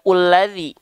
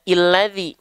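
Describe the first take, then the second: First: The opening vowel is u. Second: The opening vowel is i. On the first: "Kenapa nggak dibaca ulladzi?" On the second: "Kenapa nggak dibaca illadzi?"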